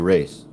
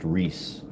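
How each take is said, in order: First: The vowel sounds like the one in 'face'. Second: The vowel sounds like the one in 'piece'. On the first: This is the Portuguese way of saying it. "Portuguese spell, you know, pronunciation. You would say race" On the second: This is the way it is said in California. "it's pronounced Reese in California"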